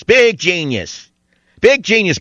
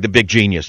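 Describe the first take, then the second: First: Slow sneering higher mock praise; sarcastic. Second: Said in the usual way. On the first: Mocking Spielberg as genius.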